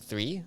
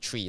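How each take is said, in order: First: The word starts with a soft 'th' sound. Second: The word starts with a hard 't' sound.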